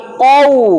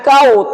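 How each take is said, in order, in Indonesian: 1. Dimulai dengan bunyi q tenggorokan yang dalam. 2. Dimulai dengan bunyi k depan yang ringan. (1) "tapi qau" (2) "Bukan kau"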